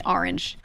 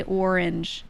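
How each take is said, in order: First: ORANGE with an open "ah" start; own regional pronunciation. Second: ORANGE with a rounded "or" vowel; others' pronunciation. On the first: Shown as a demonstration. Streamer showing how they say it, Northeastern pronunciation. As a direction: say orange as "AR-inj". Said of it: "Sorry, I say orange". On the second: Retold or imitated. Streamer showing how you people say it, mimicked pronunciation. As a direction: say orange as "OR-inj". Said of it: "That's what you people say".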